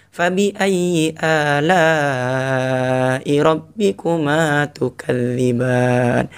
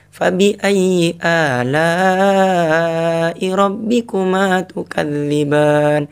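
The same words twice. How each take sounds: First: Slow melodic chant; gentle recitation, second take. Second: Gentle recitation. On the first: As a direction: draw it out tenderly. (tilawah pelan kedua) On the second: (tilawah lembut bernada) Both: Shown as a demonstration. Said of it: "Intonasinya beda kan?".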